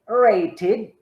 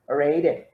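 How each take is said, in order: First: The middle consonant is a clear t sound. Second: The middle consonant sounds like a d. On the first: "the conservative pronunciation" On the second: "the way people speak in Canada"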